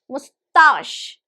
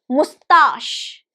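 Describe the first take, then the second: The two takes are said the same way.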